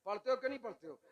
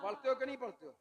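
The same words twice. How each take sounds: The two takes are said the same way.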